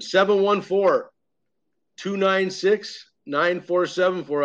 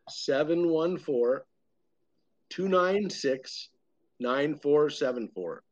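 First: The number is said at a quicker pace. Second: The number is said slowly and easily.

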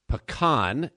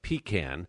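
First: It is said the Texan way. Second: It is said the New York way. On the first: This is how people in Houston say it. "I had to learn how to say pecan" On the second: This is how it is said in New York. "Coming from New York"

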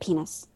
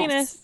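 First: The word is said at the lowest volume. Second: The word is yelled at the highest volume. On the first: "So if you start off, you're like" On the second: "You have to yell it louder than the person before"

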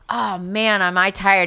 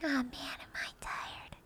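First: It is said in a normal speaking voice. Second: It is said in a whispery little-kid voice.

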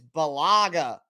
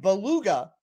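First: The name does not sound like beluga. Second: The name sounds like the whale, beluga. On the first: The speaker calls it right. "I believe that is the correct way to say it" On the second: The speaker calls it wrong. "It's not Brian Beluga like the whale"

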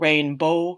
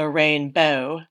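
First: The O vowel is made in the back. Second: The O vowel is made further front. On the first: "the pronunciation of O in the back of the mouth" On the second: "to more in the front of the mouth"

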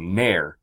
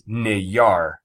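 First: It is said as one syllable. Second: It is said as two syllables. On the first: The name's spelling is reversed. The speaker calls it wrong. "Most people would say N-A-Y-R, so Nair" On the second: The name's sound is reversed. The speaker calls it right. "to pronounce it backwards, it's Nayar"

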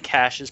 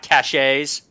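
First: The word is said like 'cash' with no 'ay'. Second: The word is said like 'cash-ay' with a final 'ay'. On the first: The speaker calls it right. "Plus one for saying caches properly" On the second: The speaker calls it wrong. "not caches. There's no damn accent over the E"

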